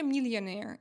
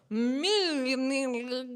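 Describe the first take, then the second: First: Said in the usual way. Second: "Millionaire" dragged out and garbled, tongue stuck on the l; struggling pronunciation. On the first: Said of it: "So today I am better". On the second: Shown as a demonstration. Streamer re-enacts failing on stream, "Millionaire" mangled and drawn out. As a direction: fumble "Millionaire" slowly and loudly, stretching the l sounds. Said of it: "I couldn't pronounce it that time".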